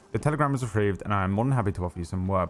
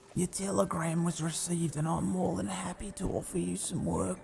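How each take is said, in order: First: It is read in his own normal voice. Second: It is read in a Wallaby Kid impression.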